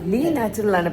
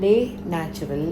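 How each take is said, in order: First: The first word sounds like 'lee'. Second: The first word sounds like 'lay'. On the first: The speaker calls it right. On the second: The speaker calls it wrong.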